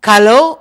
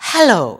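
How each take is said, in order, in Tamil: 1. இச்சொல் கடின 'g' ஒலியில் தொடங்குகிறது. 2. இச்சொல் மூச்சுக் காற்றுடன் கூடிய 'h' ஒலியில் தொடங்குகிறது. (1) "கலோ அல்ல" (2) "ஹ. உச்சரியுங்கள்"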